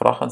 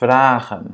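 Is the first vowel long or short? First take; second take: short; long. First: The first vowel is short. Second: The first vowel is long. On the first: The speaker calls it wrong. "c'est pas A, c'est pas vragen" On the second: The speaker calls it right. "la première voyelle soit prononcée de manière longue"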